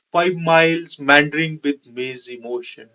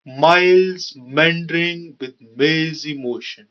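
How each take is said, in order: First: Said in the usual way. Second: Stretched, emphasised m in miles, meandering, mazy, motion; stress on m words. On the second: Shown as a demonstration. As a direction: draw out each m word, very slowly. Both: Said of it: "ma sound is repeating".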